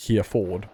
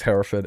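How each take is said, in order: First: Hereford said as HEER-ford, with HERE plus FORD; literal spelling pronunciation. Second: Hereford said as HEH-ruh-fud, two light syllables after HEH; British pronunciation. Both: Shown as a demonstration. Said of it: "I'm assuming it's Hereford and not".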